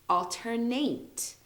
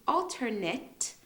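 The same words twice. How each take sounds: First: Careful ALTERNATE with a long final A; alternate as verb. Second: Careful ALTERNATE, final syllable like "net"; alternate as noun. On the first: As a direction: ALTERNATE slowly, ending in a full "nate". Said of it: "Alternate is a verb". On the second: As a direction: ALTERNATE slowly, ending in a short "nit". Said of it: "is a noun". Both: Shown as a demonstration.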